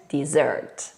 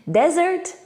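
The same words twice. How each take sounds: First: DESSERT low, dih-ZERT, falling; stress on second syllable. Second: DESERT pitched high, DEZ-ert, rising; stress on first syllable. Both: Shown as a demonstration. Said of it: "pay attention when you pronounce these words".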